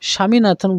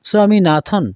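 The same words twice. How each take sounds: First: The name begins with a plain 'sh' sound. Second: The name begins with an 's' then 'w' sound. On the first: The speaker calls it wrong. "স্বামীনাথন বলবো না আমরা" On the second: The speaker calls it right. "এস ডব্লিউ এ আমরা উচ্চারণ করি স্বামী"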